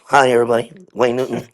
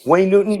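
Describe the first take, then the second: First: Lower, grinning showman hello. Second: Said in the usual way. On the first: Retold or imitated. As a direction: say it through a big stage smile. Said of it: "his smile is like". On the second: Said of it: "I would say this".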